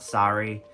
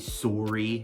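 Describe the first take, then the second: First: It is said with a non-Canadian pronunciation. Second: It is said with a Canadian pronunciation. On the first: This is not how people in Canada say it. "not sorry" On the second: This is how people in Canada say it. "I still hear them say sorry"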